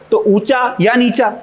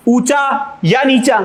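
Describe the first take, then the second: First: Said in the usual way. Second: ऊंचा या नीचा spoken slowly, या drawn out and a bit higher; slow, stressed या. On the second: Shown as a demonstration. Teacher stressing या in ऊंचा या नीचा for students. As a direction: pull the words apart to show या. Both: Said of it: "बीच में और की ध्वनि आ गई".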